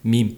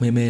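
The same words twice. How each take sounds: First: The vowel is a long 'ee' sound. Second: The vowel is not a long 'ee' sound. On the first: The speaker calls it right. "Phát âm chuẩn tiếng Anh phải đọc là meme ha, meme. Giống tiếng Việt mình là im" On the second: The speaker calls it wrong. "mà đọc meme là sai nha"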